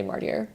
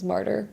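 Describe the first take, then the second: First: Martyr said as "mar-teer"; bookworm's "mar-teer" for martyr; mispronounced martyr. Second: Said in the usual way. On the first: Shown as a demonstration. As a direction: end martyr in "-teer" instead of "-ter". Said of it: "excuse me if I say". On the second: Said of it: "obviously I know this is".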